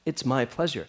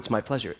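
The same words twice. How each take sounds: First: It is said warmly and sincerely. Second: It is said in a flat, offhand way. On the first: The person truly means it. "he really meant it" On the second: It is said only out of habit. "it wasn't a perfunctory, oh"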